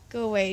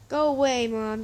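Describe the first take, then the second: First: Said in the usual way. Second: Raised-voice acted dismissal; called out loudly. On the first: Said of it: "Jack said again". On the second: A narrator's reading. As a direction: call through a closed door. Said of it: "Jack said loud enough".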